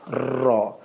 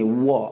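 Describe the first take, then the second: First: The r is made with the tongue tip behind teeth. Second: The r sounds like a w or v. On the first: The speaker calls it right. "ambil hujung lidah kita, kenakan di belakang gigi kita" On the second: The speaker calls it wrong. "seperti bunyi V ataupun W seperti gini"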